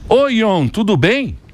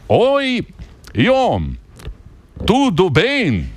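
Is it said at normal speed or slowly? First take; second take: normal speed; slowly. First: It is said at normal speed. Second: It is said slowly and deliberately.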